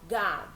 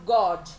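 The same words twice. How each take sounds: First: The vowel sounds like an open 'ah'. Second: The vowel sounds like a rounded 'oh'. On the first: The speaker calls it right. "eles falam" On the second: The speaker calls it wrong. "Eles não falam"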